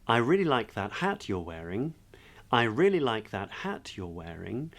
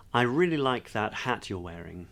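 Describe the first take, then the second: First: Each statement ends with a rising pitch as if asking a question; Valley Girl uptalk on "wearing"; upspeak. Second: Said in the usual way. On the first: Shown as a demonstration. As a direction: lift "wearing" up at the end like a question. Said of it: "an upspeak version of that would be". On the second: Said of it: "So if I was to say".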